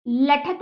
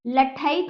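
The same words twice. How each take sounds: First: लठत said with a short plain a in the middle, no ai; wrong pronunciation. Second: लठैत with a clear ai in the middle syllable; correct pronunciation. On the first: Teacher showing children the wrong way, लठत without ai. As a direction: drop the ai sound and say लठत flat. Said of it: "ऐसे ही लठत नहीं होता". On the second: Teacher giving children the right sound, लठैत with ai. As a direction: open up the ai in लठैत. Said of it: "लठैत होता है". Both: Shown as a demonstration.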